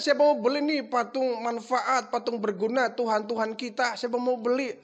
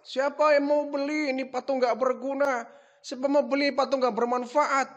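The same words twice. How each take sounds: First: Correct sales call. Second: Higher mock hawker cry; repeating the shout. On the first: Retold or imitated. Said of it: "Harusnya begitu". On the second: [name] shows father how he shouted, high mock cry. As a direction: replay his street call. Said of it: "teriak-teriak apa tidak".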